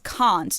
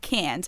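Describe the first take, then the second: First: It is said with a British accent. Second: It is said with an American accent.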